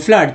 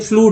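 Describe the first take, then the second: First: The vowel is a short 'uh' sound. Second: The vowel is a long 'oo' sound. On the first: The speaker calls it right. "चूंकि अ का उच्चारण करे फ्लड" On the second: The speaker calls it wrong. "जिनको नहीं पढ़ने आएगा वो कह देंगे फ्लूड है"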